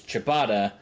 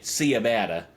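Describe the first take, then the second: First: It is said in the speaker's usual accent. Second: It is said in an imitated Southern US accent.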